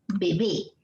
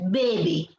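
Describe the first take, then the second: First: The stress is on the last syllable. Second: The stress is on the first syllable. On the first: This is the widely accepted standard form. "que es la palabra aguda" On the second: This is a regional form used locally. "Aquí usamos la palabra grave"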